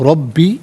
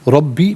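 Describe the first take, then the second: The two takes are said the same way.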